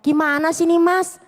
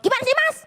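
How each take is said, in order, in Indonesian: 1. Diucapkan dengan nada lembut dan sopan. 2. Diucapkan dengan nada galak dan kasar. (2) "Ampun ini galak banget, antagonis kan"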